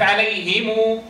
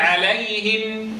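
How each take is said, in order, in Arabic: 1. الميم الأخيرة فيها صوت حركة. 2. تنتهي بميم ساكنة بلا حركة. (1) "ولا يقف عليهم" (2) "يقف بسكون محض"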